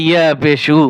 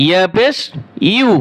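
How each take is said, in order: First: ইয়া পেশ read as a bare উ, with the y sound dropped; common wrong reading. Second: ইয়া পেশ said as ইউ, like the English letter U, with the y glide kept; correct reading. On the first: Teacher imitates the mistake learners make with ইয়া পেশ. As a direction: drop the y and say just উ, the way many wrongly read. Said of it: "অনেকে পরে ইয়া পেশ উ". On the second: Teacher shows students the right ইউ for ইয়া পেশ. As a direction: say ইউ like the letter U, keeping the y. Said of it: "যে ইউ অক্ষর আছে ... ওরকম ইউ". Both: Shown as a demonstration.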